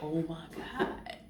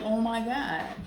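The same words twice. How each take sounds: First: Hushed disbelief. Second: Higher, slow, stretched Oh my God; drawn-out gasp. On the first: Reacting to the stories again, slow hushed Oh my God. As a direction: drop it to a stunned hush. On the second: Reacting to the stories, slow higher shocked Oh my God. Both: Retold or imitated.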